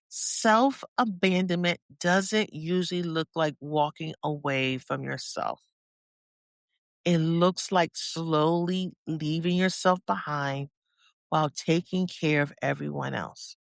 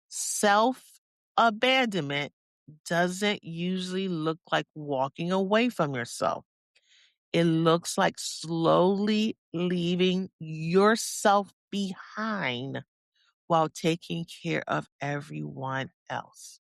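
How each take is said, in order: First: It is said at a normal pace. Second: It is said slowly, with more space.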